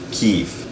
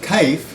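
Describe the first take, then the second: First: It has a single long ee vowel. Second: It has a diphthong and no final vowel. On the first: "it's going to sound like kif" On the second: "even if you have kaif"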